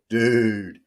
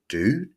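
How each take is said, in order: First: It is said in a reproachful, scolding tone. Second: It is said as a wary, suspicious question. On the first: The listener made a mistake. "dude, you messed up" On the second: The speaker suspects the listener of an attack. "are you sneaking up behind me, fixing to weld me in the back of the head with a hammer?"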